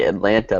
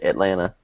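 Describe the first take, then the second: First: The second t is clearly pronounced. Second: The second t is dropped. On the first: "They don't say Atlanta" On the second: "They don't pronounce the second T"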